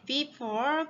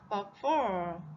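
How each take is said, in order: First: The first syllable has a full 'bee' vowel. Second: The first syllable has a short reduced vowel. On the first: The speaker calls it wrong. "우리는 흔히 before, behind라고 발음하곤 해요. 하지만 굉장히 어색한 발음이 되고요" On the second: The speaker calls it right. "before 이렇게 발음해 줘야 돼요"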